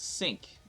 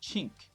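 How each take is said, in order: First: It starts with an s sound, French style. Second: It starts with a ch sound, Italian style. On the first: "the French people uh, pronounce it as sink"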